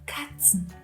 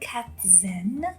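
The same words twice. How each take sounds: First: The middle consonant sounds like 'ts'. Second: The middle consonant sounds like English 'z'. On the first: The speaker calls it right. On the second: The speaker calls it wrong.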